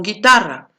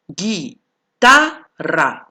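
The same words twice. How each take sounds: First: Said in the usual way. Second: "Guitarra" stretched out very slowly, each syllable clear, no U sound; slow careful demo. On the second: Shown as a demonstration. Teacher slowly sounding out "Guitarra" for students. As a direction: draw out "Guitarra" slowly so students hear there is no U. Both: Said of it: "No suena la U".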